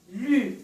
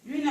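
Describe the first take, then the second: First: "Lune" split as "lu... ne"; two detached syllables in "Lune"; counting syllables. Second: Said in the usual way. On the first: Shown as a demonstration. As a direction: draw out "lu", pause, then a separate "ne". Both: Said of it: "On compte les syllabes".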